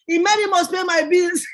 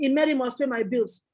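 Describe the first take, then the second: First: Cheeky mock quote of her own slogan; teasing. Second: Said in the usual way. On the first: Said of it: "the first thing they say on the phone is". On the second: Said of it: "People were laughing at me when I was saying".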